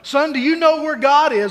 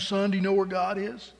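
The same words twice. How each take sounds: First: The question is said louder, spoken up. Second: The question is said at normal, softer volume.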